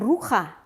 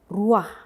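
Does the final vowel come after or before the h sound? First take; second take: after; before. First: The a vowel comes after the final h. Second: The a vowel comes before the final h. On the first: The speaker calls it wrong. "bukan ruha" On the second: The speaker calls it right. "Ruah, ya, bukan ruha"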